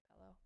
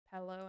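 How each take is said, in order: First: "pello." with a clear, breathy p at the start; crisp p on "pello."; her own pronunciation. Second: "pello" as the Victorians say it, the first sound barely there; Victorian pronunciation. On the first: Shown as a demonstration. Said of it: "and I say". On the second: Retold or imitated. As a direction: Victorian Australian "pello" with a weak start. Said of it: "people in Victoria say".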